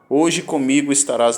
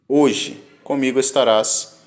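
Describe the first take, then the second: First: There is no pause after 'hoje'. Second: There is a pause right after 'hoje'. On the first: The promise will be fulfilled that same day. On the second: The promise is made today but fulfilled later.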